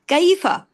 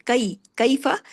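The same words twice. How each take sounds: First: कैफा said high and loud, the wrong way; mock the mistake on कैफा, pitched high; wrong pronunciation demo; wrong example. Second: कैफा short, one beat on फा, light; correct kaifa. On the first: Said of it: "इसको कैफा नहीं पढ़ेंगे". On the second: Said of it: "फा के साथ एक हरकत है". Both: Shown as a demonstration.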